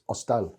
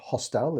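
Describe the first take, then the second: First: The word begins with no H sound. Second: The word begins with an audible H sound. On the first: The speaker calls it right. "the H, is silent in Spanish" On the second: The speaker calls it wrong. "It's not hostel"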